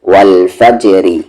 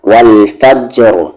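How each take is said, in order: First: The word continues with a light r plus vowel. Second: The word ends on a stopped, heavy r. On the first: The reciter continues without pausing. "Light" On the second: The reciter pauses on the word. "Heavy"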